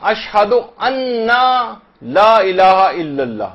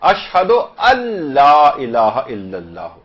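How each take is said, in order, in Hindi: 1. 'la' से पहले n की दोहरी आवाज़ बोली जाती है। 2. n, l में मिल जाता है, और n की कोई आवाज़ नहीं आती। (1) "ये गलत है" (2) "ये सही भी है और फसीह भी है"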